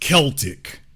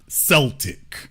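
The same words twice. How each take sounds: First: The word begins with a hard K sound. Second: The word begins with a soft S sound. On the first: The speaker calls it right. "it's pronounced Celtic" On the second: The speaker calls it wrong. "not Celtic"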